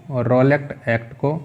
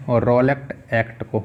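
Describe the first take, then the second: No difference in how they are said.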